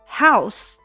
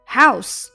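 First: It is said with a natural English intonation. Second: The same.

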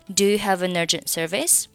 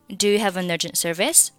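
First: 'Have', 'an' and 'urgent' are linked together. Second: 'Have', 'an' and 'urgent' are linked together.

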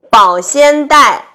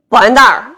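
First: Every syllable is clearly pronounced. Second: The middle syllable is swallowed.

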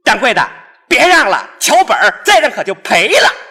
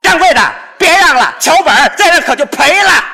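First: It is said with moderate force. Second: It is said with much more force.

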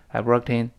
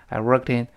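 No difference in how they are said.

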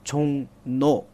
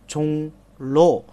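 First: The second syllable starts with an N sound. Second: The second syllable starts with an L sound. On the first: The speaker calls it right. "但是读的时候呢读作chong no" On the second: The speaker calls it wrong. "本来的话呢是chong lo"

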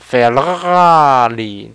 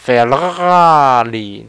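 First: The name is said with Italian-like pronunciation. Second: The name is said with Italian-like pronunciation.

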